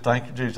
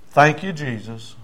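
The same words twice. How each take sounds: First: Softer imitation of the convert; subdued retold response; meek repetition. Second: Slow, deliberate thanks; measured prayer of thanks; leading a prayer. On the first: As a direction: echo the thanks quietly. Convert repeats the thanks. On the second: Retold or imitated. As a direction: give the prayer line to repeat. Preacher leads thanks for repeating.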